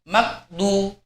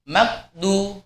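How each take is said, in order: Both takes have the same delivery.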